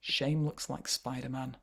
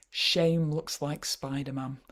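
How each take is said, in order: First: Said in the usual way. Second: Slow title reading. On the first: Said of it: "repeats title plainly". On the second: Shown as a demonstration. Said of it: "reads title slowly".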